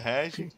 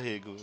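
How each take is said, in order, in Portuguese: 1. O nome termina com som de 'ee'. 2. O nome termina com som de 'o'. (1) "Como seria o Rego no Brasil" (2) "no Japão os caras falam Rego mesmo"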